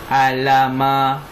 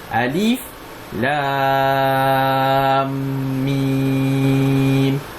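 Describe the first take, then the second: First: The letters are blended into one short word. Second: Each letter name is said separately in full. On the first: The speaker calls it wrong. "adakah kita baca macam ni? Alama. Tak kan?" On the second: The speaker calls it right. "Kita baca huruf dengan huruf"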